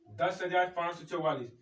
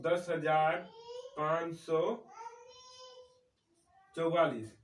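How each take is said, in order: First: Said in the usual way. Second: Number read out bit by bit with long pauses; spaced-out teacher's dictation; slow dictation. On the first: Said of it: "जैसे दस हजार पाँच सौ चौवालीस लिखना है". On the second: Shown as a demonstration. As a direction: dictate it slowly so they can write. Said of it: "तो लिखते हैं हम लोग".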